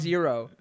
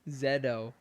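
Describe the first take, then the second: First: The middle consonant is a plain R sound. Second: The middle consonant is a D sound. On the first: "they put up the word" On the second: "like with a D"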